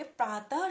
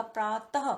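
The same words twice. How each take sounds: First: Said in the usual way. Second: प्रातः ending in an audible breathy ह; visarga demo. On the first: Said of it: "आप उसको ध्यान से सुनेंगे". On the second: Shown as a demonstration. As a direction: sound out प्रातः so the final ह is heard. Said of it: "last में आपको ह की आवाज आ रही है".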